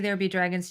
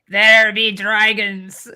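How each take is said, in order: First: It is said in her normal voice. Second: It is said in a put-on pirate voice.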